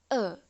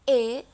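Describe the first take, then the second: First: The vowel is the E pepet sound. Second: The vowel is the E jejek sound. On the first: "dan E pepet E" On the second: "E jejek itu E"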